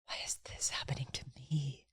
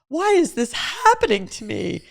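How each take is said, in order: First: It sounds humbled and full of awe. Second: It sounds panicked, like a helpless victim. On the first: How did I get so lucky? "you feel so humbled and amazed" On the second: Things are unfairly happening against me. "Which is just panic and victimization"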